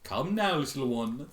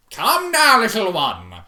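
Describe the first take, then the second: First: Said in the usual way. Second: Higher, louder, sing-song zebra; Zecora voice. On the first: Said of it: "rereads with voice". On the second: Acted. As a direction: coo it theatrically. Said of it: "redone in Zecora voice".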